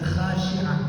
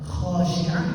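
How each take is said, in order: First: The first syllable has a light, open a vowel. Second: The first syllable has a heavy, rounded o vowel. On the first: The speaker calls it wrong. "jadi khasyi'ah, nggak konsisten" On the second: The speaker calls it right. "kho itu biasanya"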